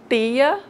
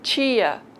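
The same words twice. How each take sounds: First: The t is a plain, dry sound. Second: The t is a hissing ch-like sound.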